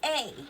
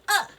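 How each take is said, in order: First: The vowel is a full 'ay' sound. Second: The vowel is a short weak 'uh' sound. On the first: The speaker calls it wrong. "we don't really say A" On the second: The speaker calls it right. "We usually pronounce it uh"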